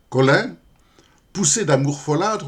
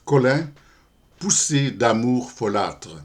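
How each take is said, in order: First: Higher, livelier verse reading, lifted at the line end; poem recitation. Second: Said in the usual way. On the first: Acted. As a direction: open the poem with a rising lilt. Commence la récitation du poème. (récitation de poème, ton plus haut et enlevé)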